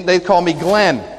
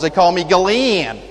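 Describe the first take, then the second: First: The name is said with one syllable, Atlanta style. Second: The name is drawn out into several syllables, South Georgia style.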